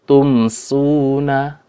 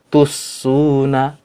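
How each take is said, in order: First: The m is pronounced clearly before the s. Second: The m merges fully into the following s. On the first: The speaker calls it right. "tapi dengan id izhar" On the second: The speaker calls it wrong. "tidak dibaca dengan idgham juga"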